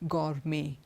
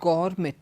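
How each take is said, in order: First: The final T is not pronounced. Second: The final T is pronounced. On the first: The speaker calls it right. "We don't pronounce the T at the end" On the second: The speaker calls it wrong. "It's not gourmet"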